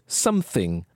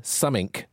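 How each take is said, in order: First: The word is said in crisp, posh standard pronunciation. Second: The word is said in a clipped, slangy pronunciation. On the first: "the dulcet tones of some received pronunciation" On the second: "added to the list of slang words"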